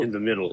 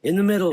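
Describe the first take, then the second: First: Said in the usual way. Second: Put-on high old voice in unison; old man's voice. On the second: A narrator's reading. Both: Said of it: "like their voices were one".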